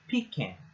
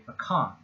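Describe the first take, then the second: First: The stress is on the first syllable. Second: The stress is on the second syllable. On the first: This is how it is said in the South. "the first syllable is is accented" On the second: This is how it is said in the Northeast. "in the Northeast"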